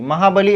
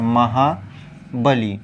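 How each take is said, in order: First: महाबली run together with a brief ending; short final i. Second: महाबली slowly as महा, बली, ending held; long final ī. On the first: Teacher showing students the misspelling, quick महाबली. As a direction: say महाबली straight through, li short. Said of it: "ऐसे नहीं लिखा जाता". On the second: Teacher spelling the correction for students, slow महाबली. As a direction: part महाबली and lengthen the ली. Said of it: "कुछ इस तरीके से". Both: Shown as a demonstration.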